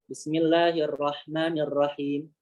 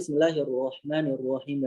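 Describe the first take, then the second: First: The r sound is thin, like ra. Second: The r sound is heavy, like ro. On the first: The speaker calls it wrong. "selalu ra ra" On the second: The speaker calls it right. "Harusnya kan"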